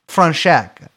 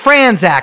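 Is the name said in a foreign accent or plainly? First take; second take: foreign accent; plainly. First: The name is said in a foreign accent. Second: The name is said in a plain accent. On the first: "I was doing it in an accent" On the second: "It's Franzak, I know"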